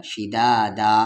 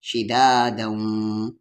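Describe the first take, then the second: First: शिदादा ending on an open long aa, no nasal; stopping form. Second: शिदादम very slow, ending in a held nasal hum; merged with ghunna. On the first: Teacher showing the pause form, शिदादा ending open. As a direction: draw out the final aa of शिदादा and stop. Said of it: "रुकने की सूरत में". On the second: Teacher showing non-stop reading, शिदादम slowly hummed nasally. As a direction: stretch शिदादम and hum the end through the nose. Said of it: "इदगाम with गुन्ना". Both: Shown as a demonstration.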